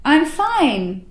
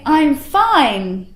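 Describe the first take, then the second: First: The voice is lively and sends energy outward. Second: The voice is lively and sends energy outward.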